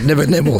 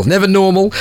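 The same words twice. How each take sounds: First: Said in the usual way. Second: "normal" raised and stretched, teasing; sing-song "never normal"; stress on normal. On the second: Shown as a demonstration. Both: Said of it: "No, it's never".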